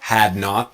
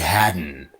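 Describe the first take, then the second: First: Two full words with a clear T. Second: One contracted word with an audible T. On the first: "it's had not to hadn't" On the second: "hadn't will be hadn't"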